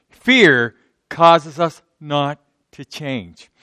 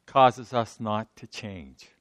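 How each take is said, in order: First: Fear stressed, whole line slow at full voice; slow emphatic restatement. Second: Said slowly and softly, each word weighed; slow and quiet. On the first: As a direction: lean on Fear, drag the phrase out. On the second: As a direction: let it sink in, slow and hushed. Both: Shown as a demonstration.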